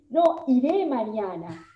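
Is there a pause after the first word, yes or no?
yes. There is a pause after no.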